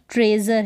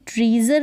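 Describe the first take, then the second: First: "ट्रेज़र" with an eh vowel, treh-zur; correct pronunciation. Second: "ट्रीज़र" with a long ee, tree-zur; wrong pronunciation. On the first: Teacher giving the right reading of treasure, eh in "ट्रेज़र". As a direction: say "ट्रेज़र" with eh before the z. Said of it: "तो यहाँ पर ट्रेज़र है". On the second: Teacher warning against misreading treasure, long-ee "ट्रीज़र". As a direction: say "ट्रीज़र" with ee in the first syllable. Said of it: "ट्रीज़र नहीं है". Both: Shown as a demonstration.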